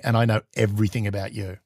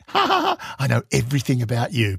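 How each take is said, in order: First: Lower, quieter, deadpan comeback from the Russian ambassador; ambassador's reply. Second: Giggling. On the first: Russian ambassador answering the teasing spy, low and quiet. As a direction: hand the threat straight back, low and cool. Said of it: "like, going". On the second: Teasing the Russian ambassador at the play, giggling. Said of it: "I had to stop giggling". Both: Retold or imitated.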